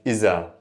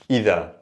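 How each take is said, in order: First: The middle consonant is a 'z' sound. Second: The middle consonant is a voiced 'th' sound. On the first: This is the everyday dialect form. "In dialect, we pronounce it iza" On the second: This is the original standard form. "we have the word idha"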